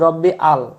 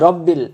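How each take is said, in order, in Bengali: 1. দুটি অংশ একটি বিরতি দিয়ে আলাদা। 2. দুটি অংশ মিলে একটি সিলেবল হয়। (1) "আমরা বলি রব্বি আল" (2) "বা অনেকে বলি রব্বিল"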